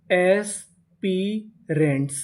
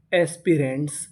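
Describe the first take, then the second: First: aspirants slowly split into its parts; syllable by syllable. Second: Said in the usual way. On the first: Shown as a demonstration. Teacher sounds out a word for learners, aspirants slowly in pieces. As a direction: stretch each piece of aspirants with gaps between. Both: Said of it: "aspirants का मतलब होता है".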